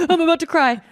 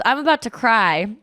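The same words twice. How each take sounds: First: High, gasping mock near-tears; gasp, then squeak it out as if tearing up; about to cry. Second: Said in the usual way. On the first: Fleeing the video lesson, mock about to cry. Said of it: "finding the leave meeting button as soon as I could". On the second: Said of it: "because he goes".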